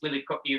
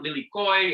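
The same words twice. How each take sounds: First: The word ends with a glottal stop. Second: The word ends without a glottal stop. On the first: The speaker calls it right. "note the glottal stop at the end of that" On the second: The speaker calls it wrong. "it's not lilikoi"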